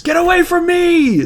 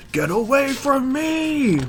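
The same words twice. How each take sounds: First: High, loud shriek of Get away from me; shrieked line. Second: High, slow, drawn-out Get away from me; slow high shriek. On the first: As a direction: yell it high and loud in panic. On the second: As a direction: stretch it out in a high panicked cry. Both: Acted. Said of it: "the big panel that says".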